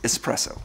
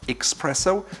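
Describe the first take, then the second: First: It is said with a plain 's' sound, no 'ks'. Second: It is said with a 'ks' sound, like expresso. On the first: The speaker calls it right. "it's espresso" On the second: The speaker calls it wrong. "There's no X in there. So it's not espresso"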